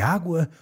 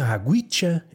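First: The word ends plainly on a vowel. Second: The word is stretched with an added 'sh' ending. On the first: The speaker calls it right. "é água" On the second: The speaker calls it wrong. "Não é aguicha"

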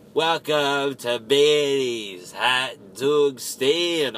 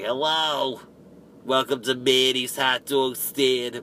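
First: It is said in a normal voice. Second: It is said with a pinched nasal voice.

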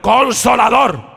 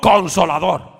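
First: The word is said very loudly. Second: The word is said at normal, softer volume.

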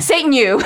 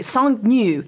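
First: The name is said with an American accent. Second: The name is said with a French accent.

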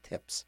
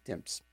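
First: The word is said without an m sound. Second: The word is said with an m sound. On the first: "Most people don't pronounce it and just say tips" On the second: "But I say tips"

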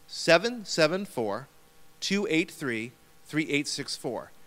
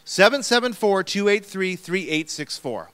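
First: The number is said slowly. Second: The number is said at normal speed.

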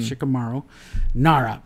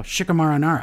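First: Every vowel in Shikamaru is clearly pronounced. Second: It is said fast with the 'u' dropped. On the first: The speaker calls it right. "it's supposed to be Shikamaru" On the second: The speaker calls it wrong. "I say it so fast and I'm from the Midwest. So I go"

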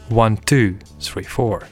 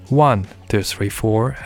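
First: The stress falls on counts two and four. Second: The stress falls on the count one. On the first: The groove leans on the backbeat. "as opposed to the typical" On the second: The groove leans on the downbeat. "accentuated downbeat with emphasis on the first beat"

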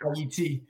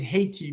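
First: The name is said with Creole pronunciation. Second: The name is said with English pronunciation. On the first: "but in Creole, it's pronounced IET" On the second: "I think you pronounce it Haiti"

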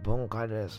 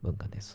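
First: It is said in a clear, unhoarse voice. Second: It is said in a sexy, hoarse voice.

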